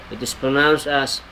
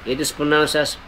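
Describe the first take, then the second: Both takes have the same delivery.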